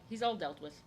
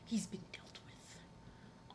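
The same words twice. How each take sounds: First: Said in the usual way. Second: Slow, breathy whispered repeat. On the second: Real, not acted. Streamer quietly repeating that the cat's worms are gone, whispered. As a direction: whisper it slowly to yourself.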